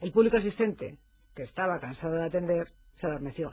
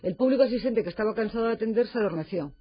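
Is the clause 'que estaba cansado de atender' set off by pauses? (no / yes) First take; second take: yes; no. First: The clause is framed by pauses and separate intonation. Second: The sentence flows without pauses around the clause. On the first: The whole audience was tired and fell asleep. "fíjate qué entonación diferente y cómo cambia completamente el sentido" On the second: Only the part of the audience that was tired fell asleep. "solo el sector de público estaba cansado de atender"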